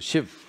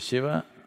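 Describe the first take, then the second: First: The final syllable is cut off. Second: The final syllable is fully pronounced. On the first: "they'll say ... the last syllable, they'll cut it off" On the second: "If you say"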